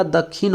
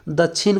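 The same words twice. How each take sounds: First: "दक्षिण" with doubled kh, dak-khin; hard kkh in place of ksh in "दक्षिण"; kh pronunciation. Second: "दक्षिण" with chh, da-chhin; chh pronunciation. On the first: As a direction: say "दक्षिण" as दक्खिन. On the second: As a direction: say "दक्षिण" as दच्छिन. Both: Shown as a demonstration. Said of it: "छ या ख की तरह".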